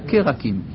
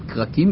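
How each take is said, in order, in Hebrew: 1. תנועה קצרה באה אחרי העיצור הראשון. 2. שני העיצורים הראשונים נאמרים ביחד, בלי תנועה. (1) "אלא קרקים. זה שבע נע, בתחילת המילה" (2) "לא צריך להגיד קרקים"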